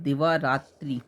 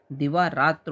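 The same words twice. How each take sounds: First: दिवा रात्रि ending in a clear "tri"; wrong compound form. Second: दिवा रात्र ending on "tra", no i; correct compound form. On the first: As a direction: say दिवा रात्रि with a final i vowel. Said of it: "ये गलत है". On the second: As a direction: drop the final i in दिवा रात्र. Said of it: "होता है शुद्ध". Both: Shown as a demonstration.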